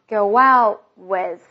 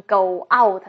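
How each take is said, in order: First: Slow "Go out" joined by a w glide, "go-wow"; linked go out. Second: "go out" as two separate full words; separated words. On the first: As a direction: glide through "Go out" as one word, t unreleased. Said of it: "中间加个哇的音". (Go out 中间加哇的音，慢速连读) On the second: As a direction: break "go out" apart, no w glide. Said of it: "不要读成go out那样的分加". (go out 分开读，不连读) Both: Shown as a demonstration.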